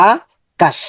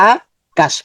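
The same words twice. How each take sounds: Both takes have the same delivery.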